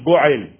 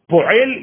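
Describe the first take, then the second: First: The word begins with a B sound. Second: The word begins with a P sound. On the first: "ils vont dire Bo'el" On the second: "Ils ne vont pas dire Binyan, Po'el"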